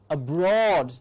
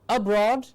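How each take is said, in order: First: The stress is on the second syllable. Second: The stress is on the first syllable. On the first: The speaker calls it right. "it is aboard, abroad" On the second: The speaker calls it wrong. "It is not aboard, abroad"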